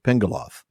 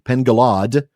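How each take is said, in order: First: The name ends with a voiced th sound. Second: The name ends with a plain d sound. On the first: The speaker calls it wrong. "not the voiced T H sound like you'll so often hear us say" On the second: The speaker calls it right. "it's the D"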